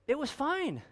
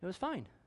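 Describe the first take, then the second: First: It is said with a marked, expressive tone. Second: It is said in a flat, neutral tone.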